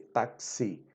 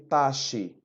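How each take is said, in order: First: The middle has a k sound before s. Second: The middle has no k sound before s. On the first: The speaker calls it right. "ta, ta, T A C, táxi" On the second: The speaker calls it wrong. "A gente não pronuncia taxi"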